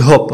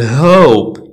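First: هوب clipped as "hop"; short vowel. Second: هوب drawn out as "hooope"; long vowel. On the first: Teacher showing the mistake to avoid, short vowel. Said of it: "ما غنقولش هوب". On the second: Teacher modelling silent E for learners, long vowel. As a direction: stretch the O glide in هوب slowly. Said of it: "كتخلي الفاول طويل". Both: Shown as a demonstration.

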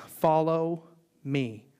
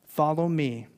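First: Very slow, weighty; slow solemn call. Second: Said in the usual way. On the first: Acted. Jesus calling Peter, slow and solemn. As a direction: let each word land slowly.

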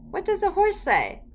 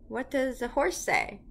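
First: Much higher, louder repeated question; eager prompting. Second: Said in the usual way. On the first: Shown as a demonstration. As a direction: coax a toddler to answer, high-pitched. Repeats question, prompting child harder.

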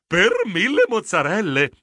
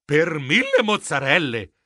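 First: Savoring delight. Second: Understated shock on the oath; aghast exclamation. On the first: Acted. Geronimo catches a sweet whiff of smoked cheese, savoring delight. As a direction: relish it with mild wonder. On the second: A narrator's reading. Geronimo hears the egg was stolen, aghast. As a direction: gasp out the oath in dismay. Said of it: "Io sbiancai".

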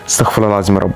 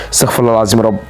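Both takes have the same delivery.

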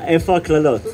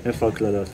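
First: Higher, asking in mock outrage; indignant question. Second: Muttered repeat. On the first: A reader mock-demands the curses from the songs, raised. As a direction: demand to know where the curses went. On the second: Pretend. The reader repeats his complaint to himself, muttered softly. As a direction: lower and much softer, under the breath.

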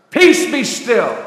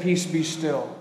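First: Loud, slow, measured command; firm rebuke. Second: Hushed, lower command; calm command. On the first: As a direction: rebuke the storm with weight on each word. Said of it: "he rebuked the sea and the winds". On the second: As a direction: quietly still the storm. Jesus calms the storm, first telling. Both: Retold or imitated.

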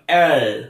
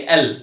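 First: এল with the tongue pulled back; lower-pitched এল ending in a dark back L; dark English L. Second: এল with the tongue tip pressed right at the front; short এল, tongue fully forward; Bengali-style clear L. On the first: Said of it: "জিহ্বাটা পেছনে". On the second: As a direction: say এল with a light front L. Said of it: "জিহ্বাটাকে একদম সামনে এনে লাগাই". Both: Shown as a demonstration.

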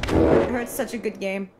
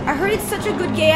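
First: Said in the usual way. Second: Higher, eager rush of enthusiasm; gush, building toward a squeal; excited gushing. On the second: Real, not acted. Streamer tells chat about a game, excited.

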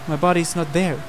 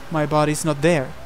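Both takes have the same delivery.

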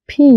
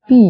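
First: "ফি" with a puff of air, long ee; aspirated P. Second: "পি" with no puff of air; mispronounced P. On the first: Teacher giving learners the right pronunciation, aspirated P. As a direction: pop air into the start of "ফি". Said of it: "সঠিক উচ্চারণ হচ্ছে". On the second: Teacher showing learners the wrong form, plain P. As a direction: give a short, unaspirated "পি". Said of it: "ভুল উচ্চারণ". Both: Shown as a demonstration.

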